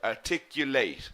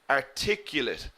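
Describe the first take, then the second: First: The final syllable is full, like late. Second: The final syllable is weak and reduced. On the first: It is the verb. "We stress the late in the verb" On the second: It is the adjective. "the adjective we pronounce differently"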